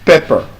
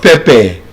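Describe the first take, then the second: First: "Pepper." ending r-coloured, "pep-per"; schwa ending. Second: "pepper" said "pepe", with an e at the end; the Nigerian "pepper", "pepe"; wrong ending. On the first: Teacher modelling the right "Pepper.". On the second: Teacher showing the mistake, "pepper" as "pepe". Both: Shown as a demonstration. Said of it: "is not".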